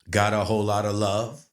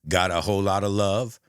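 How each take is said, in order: The two takes are said the same way.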